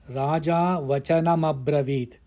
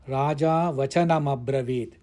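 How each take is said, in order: The two takes are said the same way.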